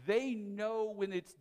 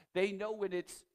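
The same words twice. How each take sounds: The two takes are said the same way.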